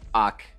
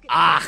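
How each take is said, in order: First: The final K sound is light. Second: The final K sound is forceful.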